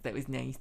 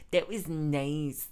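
First: Said in the usual way. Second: Drawn-out sincere that was nice; lingering sincere afterthought; slow sincere repeat. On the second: Shown as a demonstration. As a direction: stretch it out slowly and mean it. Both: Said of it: "repeats it more slowly".

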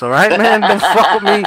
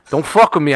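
First: A light Sopranos-style threat, laughing; half-joking alpha male warning; mock mobster tough guy. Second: Said in the usual way. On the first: After binge-watching The Sopranos, mock tough-guy warning. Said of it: "I'm in that fucking alpha male mode".

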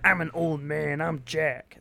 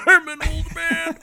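First: Put-on grumpy old man. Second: High, loud cartoon old man; grumpy old man. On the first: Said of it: "That's a terrible old man voice". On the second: Shown as a demonstration. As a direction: crank up a wheezy geezer voice. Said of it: "what I meant to do was more like this".

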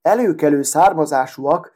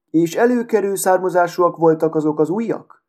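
First: A light scoffing repeat of "Előkelő származásúak", lightly voiced; mocking laugh. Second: The glass shard asks with polite interest, rising on előkelő; curious inquiry. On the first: The needle scoffs at the glass shard's question, mildly mocking. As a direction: toss the words back with a faint sneering chuckle. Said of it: "nevetett gúnyosan". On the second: The glass shard asks the needle about her past, curiously. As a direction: lift gently into the question, a touch nosy. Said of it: "érdeklődött az üvegcserép". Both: A narrator's reading.

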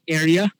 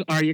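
First: "Arya" opening like AIR; imitated Arya pronunciation. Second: "Arya" opening with AR as in car; preferred Arya pronunciation. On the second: Shown as a demonstration. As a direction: say "Arya" as AR-ya, broad first vowel. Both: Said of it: "I think you said Arya".

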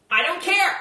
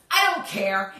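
First: Breezy dismissal. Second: Lower shrug. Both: Acted. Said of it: "She was copying me?".

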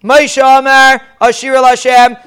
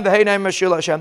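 First: Called out louder, like a leader opening the song; leader calls out. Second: Softer answering echo of the leader's words; congregation answers. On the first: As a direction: lead the first words for all to repeat. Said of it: "So how did they say it?". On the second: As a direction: echo back the words quietly, as the crowd. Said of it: "They repeated after him". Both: Shown as a demonstration.

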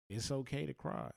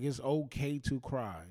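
First: Said in the usual way. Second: Slower, louder, leaning on "okay"; slow, louder emphatic restatement; emphatic repeat. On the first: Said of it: "Like, it's okay to cry". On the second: Shown as a demonstration. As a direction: press the point home, slow "it's okay to cry" with weight on "okay".

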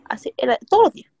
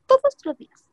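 First: Said in the usual way. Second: "todos los días" repeated much higher, stressing "todos"; emphatic repeat. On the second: Real, not acted. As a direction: lift "todos" high on the repeat.

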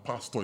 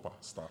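First: Pastor said with an "aw" ending, no R; contrasted pronunciation. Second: Pasta said with a short "ah" ending; contrasted pronunciation. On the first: Nigerian telling Ghanaians apart two words, "pastor" ending in "-taw". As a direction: end "pastor" on an open "-taw". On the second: Nigerian telling Ghanaians apart two words, "pasta" ending in short "-tah". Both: Shown as a demonstration. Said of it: "pastor is not pasta".

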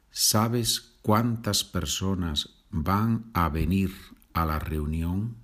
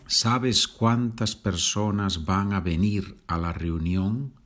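Both takes have the same delivery.

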